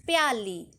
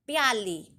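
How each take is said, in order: First: प्याली said clearly, short प gliding into या; model pronunciation. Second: प्याली said again with the same clear glide into या; repeated model. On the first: Teacher models प्याली for the class. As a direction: say प्याली slowly and clearly for children to copy. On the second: Teacher repeats प्याली for the children. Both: Shown as a demonstration. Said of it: "उच्चारण कैसे करेंगे?".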